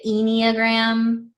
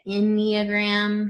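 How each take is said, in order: First: Enneagram with a long EE at the start; first syllable of Enneagram like "eel"; own pronunciation. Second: Enneagram with a short first vowel; short opening vowel on Enneagram, as others say it; other people's pronunciation. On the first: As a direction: say Enneagram as "EE-nee-a-gram". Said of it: "I say it Enneagram". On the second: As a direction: say Enneagram with a short, lax first syllable, no long EE. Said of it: "Some people say it Enneagram". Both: Shown as a demonstration.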